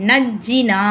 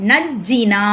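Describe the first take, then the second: Both takes have the same delivery.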